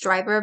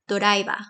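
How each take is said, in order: First: It is said with English sounds, two syllables. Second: It is said with Japanese sounds, added vowels. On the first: "in English, it's driver" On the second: "in Japanese, it would be doraiba"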